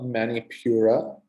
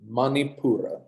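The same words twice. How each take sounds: First: The sounds are anglicised, English-style. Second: The sounds follow Sanskrit pronunciation. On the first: The speaker calls it wrong. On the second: The speaker calls it right.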